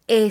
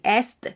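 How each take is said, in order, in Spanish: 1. Solo se pronuncia la vocal, sin consonantes. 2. Se pronuncian tanto la s como la t. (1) "Estaremos diciendo E solamente" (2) "No vamos a decir est"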